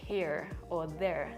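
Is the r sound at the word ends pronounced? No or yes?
yes. The final r sounds are pronounced. "people don't really say like"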